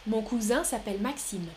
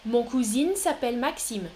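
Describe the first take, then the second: First: "cousin" ending in a nasal vowel, no sounded N; masculine cousin pronunciation. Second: "cousin" said like "cousine", ending in a sounded N; feminine-sounding cousin. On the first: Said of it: "Deuxième prononciation". (« cousin » au masculin, voyelle nasale finale sans N) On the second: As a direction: say "cousin" as koo-zeen. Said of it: "deux prononciations". (« cousin » prononcé « cousine », avec N final sonore) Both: Shown as a demonstration.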